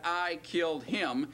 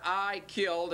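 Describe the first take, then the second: First: "him" leaned on at the end, said slower; slow down and land on "him"; "I killed him" with the weight shifted onto "him"; stress on him. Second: Said in the usual way. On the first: Shown as a demonstration. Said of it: "and now you got". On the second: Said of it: "So now you got".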